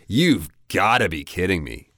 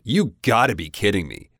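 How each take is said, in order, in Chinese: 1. 单词 have 缩短成 v 音。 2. 单词 have 完全省略不读。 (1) "it sounds a lot more natural just to say you've got to be kidding me" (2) "even the V-E, you can drop that and it would be fine"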